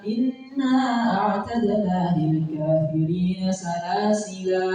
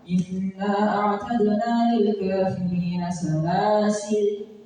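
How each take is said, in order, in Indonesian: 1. Kata terakhir berakhir dengan vokal setelah l. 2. Kata terakhir berakhir pada bunyi l. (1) "salasila boleh" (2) "Salasil boleh"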